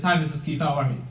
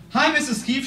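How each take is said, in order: First: Lower, softer, steady and sure; confident greeting. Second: First nervous hello to the founder; timid greeting. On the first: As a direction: greet her calmly, eye to eye. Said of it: "Every time I met her after". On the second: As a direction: greet her meekly, like a kid. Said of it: "She's just like, bam!". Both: Retold or imitated.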